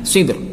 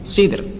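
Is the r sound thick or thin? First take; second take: thin; thin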